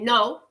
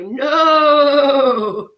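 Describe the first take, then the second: First: The word is said in a nice, gentle way. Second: The word is said in a funny, playful way. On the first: "say it in a nice way" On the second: "say it in a funny way"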